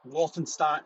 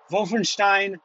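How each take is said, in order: First: It is said with an English accent. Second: It is said with a German accent.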